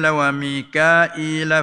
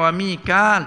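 First: The name is said with three syllables, Mi-ka-il. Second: The name is said with two syllables, Mi-kal. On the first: It does not follow the reading tradition being used. The speaker calls it wrong. "Dia baca wa Mikail tak kena" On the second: It follows the reading tradition being used. The speaker calls it right. "baca dengan wa Mikal tu baru kena"

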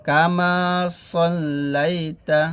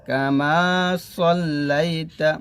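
The two takes are said the same way.

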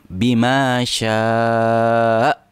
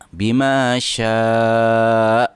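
No difference in how they are said.

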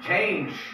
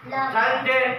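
First: The final E is silent, one syllable only. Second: The final E is sounded as an extra syllable. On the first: The speaker calls it right. "It should be silent E" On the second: The speaker calls it wrong. "We cannot pronounce these words like that"

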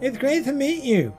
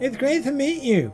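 First: It is said in a babyish, mocking voice. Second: It is said in a babyish, mocking voice.

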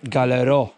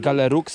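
First: The word ends in a vowel, no x sound. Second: The word ends with an audible x sound. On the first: The speaker calls it right. "To będzie Galero" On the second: The speaker calls it wrong. "to nie będzie Galerux, bo tam nie ma już później L"

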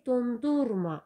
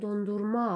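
First: The stress is on the middle syllable. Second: The stress is on the last syllable. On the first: It is a verb telling someone not to freeze something. "əti dondurma deyəndə bu formada tələffüz edirik" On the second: It is a noun meaning ice cream. "vurğu sona düşür"

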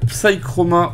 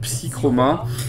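First: It is pronounced with an English accent. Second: It is pronounced with a French accent.

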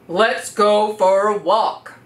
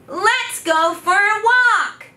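First: It is said with a strong, low pitch. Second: It is said with a high pitch.

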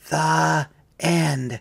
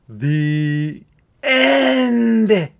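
First: The phrase is said quietly. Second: The phrase is said loudly. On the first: The speaker calls it right. "Let's say it quieter this time" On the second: The speaker calls it wrong. "We said the end too loud"

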